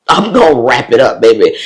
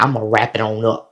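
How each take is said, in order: First: Loud, playful declaration; emphatic boast. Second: Said in the usual way. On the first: Retold or imitated. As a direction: belt it out with gleeful sass. Repeats her resolve, louder, laughing.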